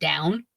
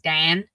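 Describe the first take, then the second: First: The vowel is standard, without a Pittsburgh accent. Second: The vowel is flattened in a Pittsburgh accent. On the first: "instead of down" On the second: "I also like will play it up if like on certain words like Dan instead"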